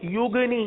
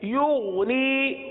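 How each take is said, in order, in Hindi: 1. बीच का व्यंजन कठोर, उछलता हुआ g है। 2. बीच का व्यंजन नरम, गले से निकलने वाला gh है। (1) "गैन के बजाय हमने गाफ पढ़ लिया और गाफ और दूसरा इसके अंदर कलकला भी कर दिया" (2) "युगनी की अदायगी वैसे ही करेंगे जैसे ऊग की अदायगी की थी"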